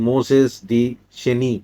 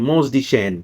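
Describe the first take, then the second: First: The first word has two syllables, the last ends in -ni. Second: The first word has one syllable, the last ends in -n. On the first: The speaker calls it wrong. "আমি এটা প্রথমে প্রোনাউন্স করছি" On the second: The speaker calls it right. "এটাকে বলতে হবে"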